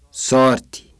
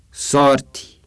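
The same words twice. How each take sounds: The two takes are said the same way.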